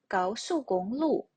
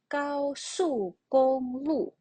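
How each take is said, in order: First: It is said quickly with the last syllable stressed. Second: It is said slowly with every tone clear.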